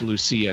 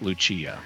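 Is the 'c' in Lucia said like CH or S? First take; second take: S; CH. First: The c is said as an s sound. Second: The c is said as a ch sound. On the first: The speaker calls it right. "in Portuguese, it's Lucia" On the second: The speaker calls it wrong. "not Lucia"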